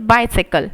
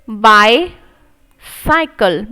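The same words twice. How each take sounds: First: Said in the usual way. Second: Bicycle drawn out very slowly, split into parts; syllable by syllable. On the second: Shown as a demonstration. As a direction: sound out each part slowly. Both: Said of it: "तो ballot".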